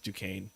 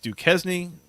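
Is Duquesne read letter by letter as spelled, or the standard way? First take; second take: Standard; As spelled. First: The name is said in its usual standard way. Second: The name is read out literally, letter by letter. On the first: It shows the real pronunciation is known. The speaker calls it right. "make sure that people know that I know how to pronounce it" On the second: It is a joke mispronunciation. The speaker calls it wrong.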